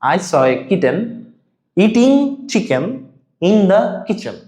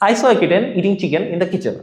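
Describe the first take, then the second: First: The sentence is said slowly and carefully. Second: The sentence is said somewhat faster. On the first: "আস্তে আস্তে try করি" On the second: "এবার একটু জোরে বলবো।"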